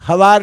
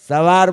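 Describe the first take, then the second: First: The word begins with an h sound. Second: The word begins with an s sound. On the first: It is the child's home dialect form. "એ હવાર બોલે છે બિલકુલ બરાબર છે" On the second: It is the standard language form. "સવાર બોલવાનું"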